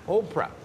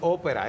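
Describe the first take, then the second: First: It sounds like the English name Oprah. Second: It sounds like the Spanish word ópera. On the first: The speaker calls it right. "no es ópera, es Oprah" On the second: The speaker calls it wrong. "Yo le decía ópera, pero yo no sabía pronunciar Oprah"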